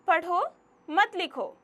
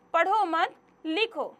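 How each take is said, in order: First: पढ़ो set apart with a rise, a pause, then मत लिखो together; pause after पढ़ो. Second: पढ़ो मत said together, a pause, then लिखो alone; pause after मत. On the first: Teacher shows pupils how a comma changes meaning, pausing after पढ़ो. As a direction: break after पढ़ो, keep मत joined to लिखो. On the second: Teacher shows pupils the opposite meaning, pausing after मत. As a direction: slowly join मत to पढ़ो, break before लिखो. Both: Shown as a demonstration. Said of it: "विराम चिन्हों के गलत प्रयोग से कभी-कभी अर्थ बदल जाता".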